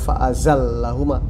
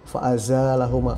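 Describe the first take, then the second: First: The vowel after the z is short, l doubled. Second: The vowel after the z is drawn out long. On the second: "Jadi dibaca panjang"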